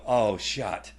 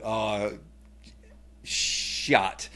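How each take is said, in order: First: Said in the usual way. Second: A hushed whisper with a falling "shot"; the kids whispering in worry; whispered dismay. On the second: Retold or imitated. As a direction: kids whispering, fearing dad's anger. Kids' dismay imitated.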